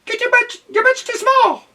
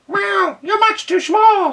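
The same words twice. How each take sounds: First: Very high, loud cat voice; a haughty cat sneering. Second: Very high, loud meowing cat snap; snapping cat. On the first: Cat telling duck off in a high voice. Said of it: "Oh, this is the cat". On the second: Cat snapping at the duck, high and loud. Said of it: "snapped the cat". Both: A narrator's reading.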